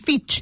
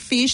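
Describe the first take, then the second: First: It is said with a Chilean accent. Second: It is said with English pronunciation.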